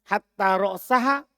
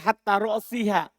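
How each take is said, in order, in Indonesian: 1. Vokal sebelum -ha adalah a. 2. Vokal sebelum -ha adalah i. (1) "dengan dibaca nasab" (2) "boleh jar untuknya"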